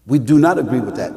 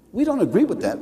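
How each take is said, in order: First: Lower, firm "do not", each word separate; stress on NOT. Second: Said in the usual way. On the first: Real, not acted. Preacher restating disagreement to the congregation, firm stress on "do not". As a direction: spell out "do not" with weight.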